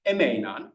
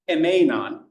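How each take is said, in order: First: Emeinan with the accent put right; corrected accent. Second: Emeinan with the stress misplaced; wrong accent. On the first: Teacher corrects her accent on Emeinan. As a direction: say Emeinan again, accent fixed. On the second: Teacher slips on the accent of Emeinan. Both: Shown as a demonstration. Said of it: "sorry, accent is wrong".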